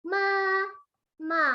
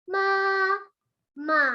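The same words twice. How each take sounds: No difference in how they are said.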